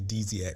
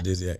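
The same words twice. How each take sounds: First: The first syllable sounds like 'deez'. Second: The first syllable sounds like 'dizzy'. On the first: The speaker calls it wrong. "he does say Dizziac" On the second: The speaker calls it right. "instead of Dizziac"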